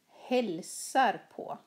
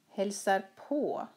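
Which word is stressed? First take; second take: hälsar; på. First: The stress falls on the verb hälsar. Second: The stress falls on the particle på. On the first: He greets her mother. "Han hälsar på hennes mamma" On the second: She visits her cousin. "Hon hälsar på sin kusin i Stockholm"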